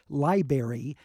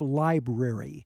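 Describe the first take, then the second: First: The R after the B is dropped. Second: The R after the B is pronounced. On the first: The speaker calls it wrong. "when someone says library instead of" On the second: The speaker calls it right. "to get that R right after the B in there"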